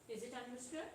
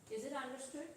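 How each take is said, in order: No difference in how they are said.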